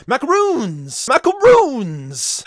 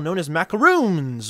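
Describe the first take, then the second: First: "Macaroons" high, with the ROONS drawn out long; exaggerated emphasis on macaroons. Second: Said in the usual way. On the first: Shown as a demonstration. Host jokingly showing the Latin way, hammed-up stress on "Macaroons". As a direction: belt out "Macaroons", stretching the last syllable. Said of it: "put the emphasis on macaroons".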